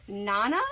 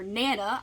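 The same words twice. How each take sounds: First: Nana with a broad ah, NAH-nuh. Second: Nana with a short a, NAN-uh. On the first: Unsure of the book title, Nana said as NAH-nuh. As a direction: say Nana with the first vowel as in father. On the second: Offering the other reading, Nana said as NAN-uh. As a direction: say Nana with the first vowel as in cat. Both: Shown as a demonstration. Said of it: "I don't know".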